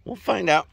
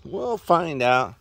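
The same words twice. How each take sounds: First: Said in the usual way. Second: "We'll" stretched slow, with a falling end; drawn out, half teasing; slow, knowing repeat. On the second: Shown as a demonstration.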